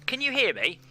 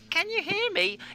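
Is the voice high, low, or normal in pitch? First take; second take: normal; high. First: It is said in a normal-pitched voice. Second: It is said in a high-pitched voice. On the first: "a normal voice" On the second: "and a high voice"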